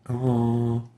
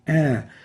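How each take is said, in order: First: The vowel is said with the nose pinched shut. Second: The vowel is said with the nose left open. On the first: "flipping between pressing or closing my nose while pronouncing the A" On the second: "and opening it"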